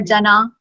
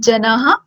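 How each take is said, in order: First: The word ends on a plain vowel. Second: The word ends with a breathy h sound. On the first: The speaker calls it wrong. "it won't be just jana" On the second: The speaker calls it right. "it will be janah"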